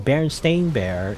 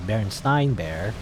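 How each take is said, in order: First: The name ends with a 'stain' sound. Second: The name ends with a 'stein' sound. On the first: The speaker calls it right. "is the correct pronunciation" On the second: The speaker calls it wrong. "a lot of people thought it was"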